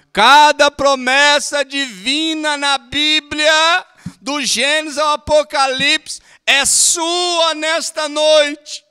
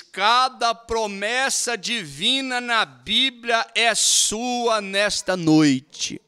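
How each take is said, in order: First: Much louder, higher, slow proclaiming shout; preached shout. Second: Slow, measured reading aloud; reading the quote. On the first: Real, not acted. Preacher proclaiming the promise to the congregation, slow shout. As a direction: thunder the promise to the whole church. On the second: Shown as a demonstration. Preacher reading from the text to the church, measured reading. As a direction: read the line out steadily first. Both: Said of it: "Ele diz aqui".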